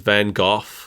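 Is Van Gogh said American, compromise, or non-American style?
non-American. It is said with a non-American pronunciation. "Over here, we were taught that it was"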